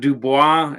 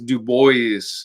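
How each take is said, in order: First: The name is pronounced the French way. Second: The name is pronounced a non-French way. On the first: The speaker calls it wrong. "That is not Dubois ... I read it as French" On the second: The speaker calls it right. "it really is Du Bois"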